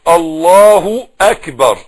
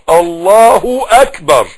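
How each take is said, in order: First: A short 'u' vowel links the two words. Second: The same.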